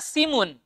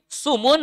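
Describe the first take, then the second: First: The first vowel is a front i sound. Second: The first vowel is a rounded u sound. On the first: "wa kasriha" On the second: "Bidhammis sin"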